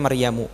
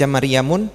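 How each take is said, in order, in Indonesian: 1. Kata ini diakhiri vokal tanpa n. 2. Kata ini diakhiri dengan bunyi n tambahan. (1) "dibacanya Maryamu" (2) "boleh nggak dibaca Maryamun? Tidak boleh"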